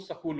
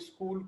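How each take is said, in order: First: A vowel is inserted, giving 'sakool'. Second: The word begins with a plain 'sk' cluster. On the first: "सकूल बोलते हैं" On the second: "स्कूल को"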